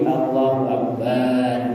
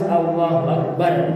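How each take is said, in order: First: The vowel in 'bar' is drawn out long. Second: The vowel in 'bar' is short. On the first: The speaker calls it wrong. "Kada boleh dipanjangkan menjadi Allahu Akbar" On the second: The speaker calls it right. "Itu harus Allahu Akbar"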